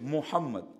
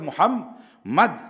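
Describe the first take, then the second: First: The middle m is short and light. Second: The middle m is doubled and held. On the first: "তাসদিদ ছাড়া" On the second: "তাসদিদ সহ"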